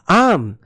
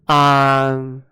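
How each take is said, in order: First: It is said cheerfully, with a smile. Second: It is said flatly, without a smile.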